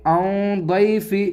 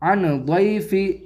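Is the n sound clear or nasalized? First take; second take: nasalized; clear. First: The n sound is hidden in the nose. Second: The n sound is pronounced clearly. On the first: The speaker calls it right. "बल्कि ऐसे पढ़ेंगे" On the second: The speaker calls it wrong. "इसको ऐसे नहीं पढ़ेंगे"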